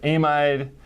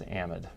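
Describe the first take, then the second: First: It is said the English way. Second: It is said the usual American way.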